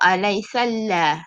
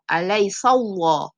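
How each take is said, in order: First: The L in Allah sounds thin and light. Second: The L in Allah sounds thick and heavy. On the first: The speaker calls it wrong. "Tak mau" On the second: The speaker calls it right. "Ya, tebal"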